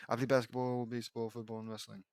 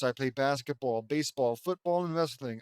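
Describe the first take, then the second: First: Low, fading mumbled mock voice; Vince. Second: Said in the usual way. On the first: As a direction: reread it low, trailing off very softly. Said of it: "It's Vince who's talking".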